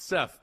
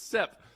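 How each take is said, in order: First: The name ends with a th sound. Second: The name ends with a p sound. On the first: The speaker is from the city. "If you're from the city" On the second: The speaker is from the country. "If you're from the country"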